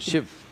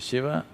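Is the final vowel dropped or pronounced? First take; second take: dropped; pronounced. First: The final vowel is cut off. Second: The final vowel is pronounced in full. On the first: "they'll say Shiv. ... cutting off the last syllable" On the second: "If you say Shiva"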